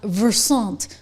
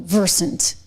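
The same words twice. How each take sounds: First: The name is said with a French-style pronunciation. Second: The name is said with a plain English pronunciation. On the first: A mocking nod to the company's supposed politics. "a little French in there" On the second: This is how the company itself says it. "I guess that's how they say it"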